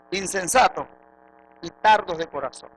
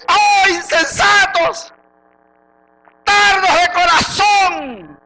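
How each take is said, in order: First: Said in the usual way. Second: Very slow, high, drawn-out shout; angry rebuke. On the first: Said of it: "¿Sabes lo que es un insensato?". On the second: Acted. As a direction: bellow it as the Lord scolding, stretching each word. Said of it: "el Señor te lo dijo bravo". (reprensión brava, a gritos)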